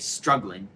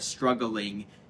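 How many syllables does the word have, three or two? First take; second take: two; three. First: The word is said with two syllables. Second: The word is said with three syllables. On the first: The speaker calls it wrong. "as I often do in regular speech, then you're only going to get eight syllables" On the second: The speaker calls it right. "it has to be three syllables"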